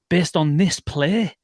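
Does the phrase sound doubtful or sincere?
doubtful. It sounds doubtful and questioning. The play was not good. "everyone looks at Phoebe as if to say, like, "Didn't you like it?""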